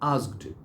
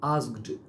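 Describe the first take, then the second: No difference in how they are said.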